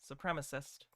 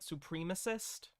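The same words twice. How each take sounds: First: It is said in an American pronunciation. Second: It is said in a non-American pronunciation. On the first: The speaker calls it right. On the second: The speaker calls it wrong.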